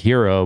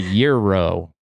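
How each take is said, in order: First: The word begins with an h sound. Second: The word begins with a y sound. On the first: The speaker calls it wrong. "I always pronounced it the hero" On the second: The speaker calls it right. "or the euro"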